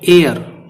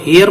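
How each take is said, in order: First: The word begins with a vowel sound. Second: The word begins with an h sound. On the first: The speaker calls it right. "एच इसमें silent है।" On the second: The speaker calls it wrong. "इसको हेयर मत बोल देना"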